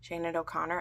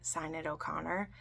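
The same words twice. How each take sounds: First: "Sinead" said as SHAY-nid, SHAY stressed; "Sinead" corrected to SHAY-nid O'Connor; corrected name. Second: "Sinead" said as SIGH-ned, softly, unsure; "Sinead" with a long I, SIGH-ned O'Connor; first try at the name. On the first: Correcting herself for viewers, "[name]" as SHAY-nid. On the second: Apologising to viewers while trying "[name]" as SIGH-ned. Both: Real, not acted. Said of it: "I'm not gonna say her name right".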